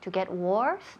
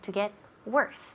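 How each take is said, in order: First: The vowel in worse sounds like an O. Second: The vowel in worse sounds like an E. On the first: The speaker calls it wrong. "no decimos worse. To get worse, no" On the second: The speaker calls it right. "esa O suena como si fuera una E"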